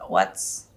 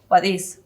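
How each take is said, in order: First: The words are contracted into one syllable. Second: Both words are said separately in full.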